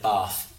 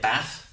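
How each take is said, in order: First: It is said in a southern English accent. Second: It is said in a northern English accent. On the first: "People in the south of England call it Bath. ... so we say R with our A's" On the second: "people in the north of England call it Bath"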